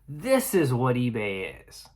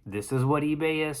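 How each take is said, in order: First: It is said brightly, in an enthusiastic tone. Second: It is said flatly, in a disappointed tone. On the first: The platform is something great. "which which is a good story" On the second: The platform is in a disappointing state. "you can tell by the way that I'm enunciating it, is that it's it's a very matter of fact. It is somewhat disappointing"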